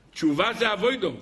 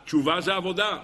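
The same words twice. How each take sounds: First: אבוידו said "avoido", with an oy. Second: Said in the usual way. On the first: Shown as a demonstration. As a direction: say אבוידו the yeshiva way, "a-VOY-do".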